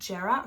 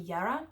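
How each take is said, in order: First: The word begins with a J sound. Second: The word begins with a Y sound. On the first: "it could be Jera" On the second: "Sometimes J has a Y sound"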